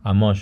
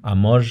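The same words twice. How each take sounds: First: Amor ending in a hushed sh; sh-like final R. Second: Amor ending in a voiced zh; asibilada final R. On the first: Teacher imitates some regional speakers, R as sh. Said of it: "pronounce it like a sh". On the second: Teacher imitates regional speakers, assibilated R. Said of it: "which would be z". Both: Shown as a demonstration.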